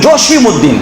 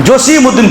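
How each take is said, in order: The two takes are said the same way.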